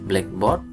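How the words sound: The stress falls on the second part. The meaning is literal. "blackboard itu adalah frase"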